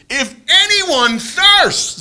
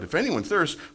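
First: It is cried out loudly with force. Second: It is said at a calm, quiet reading level. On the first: It is called out to be heard over a crowd. The speaker calls it right. "He cried out" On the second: It is read as plain text on a page. The speaker calls it wrong. "we read it that way"

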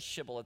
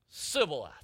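First: The word begins with an sh sound. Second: The word begins with a plain s sound. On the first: The speaker is not from that group. The speaker calls it right. "They can't say Shibboleth" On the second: The speaker is from the group that lacks this sound. The speaker calls it wrong. "They can't say that sh sound"

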